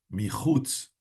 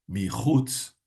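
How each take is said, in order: The two takes are said the same way.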